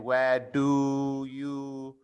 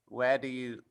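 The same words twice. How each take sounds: First: Each word is said fully and separately. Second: The words blend, with a j-like sound. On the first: The speaker calls it wrong. "we don't say where do you" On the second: The speaker calls it right. "it almost almost sounds like j"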